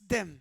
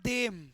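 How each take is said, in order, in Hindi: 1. स्वर कटा हुआ और छोटा है। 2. स्वर खिंचा हुआ और लंबा है। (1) "you have to finish it quick" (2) "it's not them"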